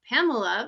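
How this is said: The name is said with English pronunciation. "In English, it's Pamela"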